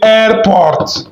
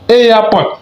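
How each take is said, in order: First: An r sound is heard in the middle. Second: No r sound is heard in the middle. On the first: The speaker calls it wrong. "il y a certains gens là, ils vont dire airport. On ne dit pas airport" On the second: The speaker calls it right. "R au milieu, on ne lit pas"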